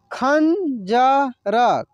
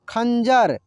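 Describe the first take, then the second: First: खंजर stretched very slowly as खं-ज-र; slow syllable by syllable. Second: Said in the usual way. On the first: Shown as a demonstration. Teacher sounds out the word slowly for students. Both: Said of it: "कैसे इसको पढ़ेंगे".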